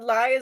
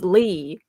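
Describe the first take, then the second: First: The vowel sounds like 'eye'. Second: The vowel sounds like 'ee'. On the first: The speaker calls it wrong. "you have to produ- uh, pronounce it I and not E" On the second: The speaker calls it right. "It's Lee"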